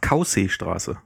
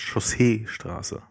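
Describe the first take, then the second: First: The word begins with a hard 'kau' sound. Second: The word begins without a hard k sound. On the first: The speaker calls it wrong. "die sagt bis heute brav Kausee-Straße" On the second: The speaker calls it right. "statt Chaussee-Straße"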